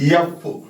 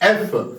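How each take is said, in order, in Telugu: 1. అక్షరం పేరు హల్లు ధ్వనితో మొదలవుతుంది. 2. అక్షరం పేరు అచ్చు ధ్వనితో మొదలవుతుంది. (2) "the first sound is vowel sound"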